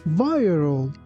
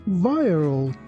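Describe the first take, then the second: Both takes have the same delivery.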